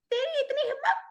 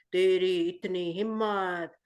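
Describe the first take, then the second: First: Very high squeaky little creature; tiny monster voice. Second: Low, slow booming monster; big monster voice. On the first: The shrunken Bogart threatens Harry in a very high tiny voice. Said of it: "Bogard की आवाज कैसी हुई". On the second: The big Bogart threatens Harry in a low slow monster voice. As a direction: growl it out like a huge monster, slowly. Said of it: "पहले Bogard की आवाज कैसे निकल रही थी". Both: Shown as a demonstration.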